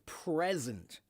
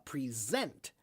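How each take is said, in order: First: The stress is on the first syllable. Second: The stress is on the second syllable. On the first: It is a noun meaning a gift. "a present or the present is on the front side" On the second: It is a verb meaning to show or give. "that's a verb"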